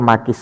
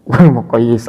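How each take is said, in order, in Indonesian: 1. Kata "maqis" terdiri dari dua suku kata dengan bunyi i panjang. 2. Kata "maqis" terdiri dari tiga suku kata dengan bunyi y ganda.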